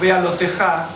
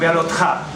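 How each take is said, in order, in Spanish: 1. Se oye una vocal e entre la t y la j. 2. No se oye ninguna vocal entre la t y la j. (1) "los sefaraditas lo pronunciamos Bealotejá" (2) "los eskenazis lo pronuncian Bealotja, sin la teja"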